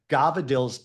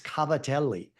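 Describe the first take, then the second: First: The word is clipped, dropping its final vowel. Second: The word is said fully, keeping its final vowel. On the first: It is the mumbled dialect form. The speaker calls it wrong. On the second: It is the proper Italian form. The speaker calls it right.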